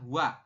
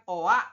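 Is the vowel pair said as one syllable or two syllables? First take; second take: one syllable; two syllables. First: It is one syllable starting with w. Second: The o and a are two separate syllables. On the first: The speaker calls it right. "dibacanya adalah wa. Langsung W" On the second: The speaker calls it wrong. "bukan oa"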